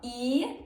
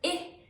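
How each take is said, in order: First: The vowel is held long. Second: The vowel is cut short. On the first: "I can be pronounced long" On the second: "or short"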